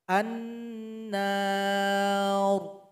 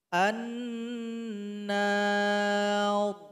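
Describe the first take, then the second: No difference in how they are said.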